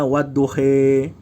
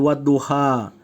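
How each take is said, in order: First: The final vowel is an 'e' sound. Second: The final vowel is an open 'a' sound. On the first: "Ada orang bacanya wadduhe" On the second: "seperti wadduha"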